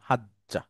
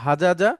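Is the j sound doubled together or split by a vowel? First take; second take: doubled; split. First: One doubled j sound with no vowel between. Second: Two separate j sounds with a vowel between. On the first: This is the simplified form for easier reading. The speaker calls it right. "একটা সুকুন দিয়ে পড়লাম" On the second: This is the original full form. The speaker calls it wrong. "মূলত ছিল হাজাজা"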